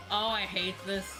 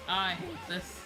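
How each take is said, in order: Both takes have the same delivery.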